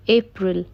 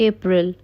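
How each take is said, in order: First: अप्रैल said as "epril"; the Hindi habit, अप्रैल with a leading e; wrong pronunciation. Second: अप्रैल said in English as "April"; correct pronunciation. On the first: Teacher showing the wrong अप्रैल. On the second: Teacher giving the right अप्रैल. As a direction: give अप्रैल an English "ay-pril". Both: Shown as a demonstration. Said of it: "अप्रैल नहीं".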